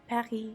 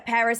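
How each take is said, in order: First: It is said in a French accent. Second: It is said in an American accent. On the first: "versus saying it with a native accent" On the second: "saying things with an American accent"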